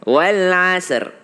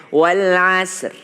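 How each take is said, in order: Both takes have the same delivery.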